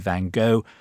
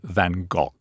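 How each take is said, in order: First: The name is said the American way. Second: The name is said the French way. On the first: "The Americans say Van Gogh" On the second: "And the French say Van Gogh"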